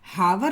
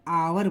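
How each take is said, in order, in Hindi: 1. इस शब्द की शुरुआत h की आवाज़ से होती है। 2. इस शब्द की शुरुआत स्वर की आवाज़ से होती है। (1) "इसको हम लोग हावर नहीं बोलते" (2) "इसको हम लोग आवर बोलते हैं"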